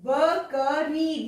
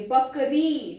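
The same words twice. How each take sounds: First: Drawn out slowly, sound by sound; slow careful reading. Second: Said in the usual way. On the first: Shown as a demonstration. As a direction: sound out बकरी slowly, syllable by syllable. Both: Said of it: "ध्यान से शब्दों को पढ़ेंगे".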